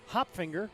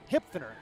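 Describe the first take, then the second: First: The surname begins with the sound 'hop'. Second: The surname begins with the sound 'hip'. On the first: The speaker calls it wrong. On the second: The speaker calls it right.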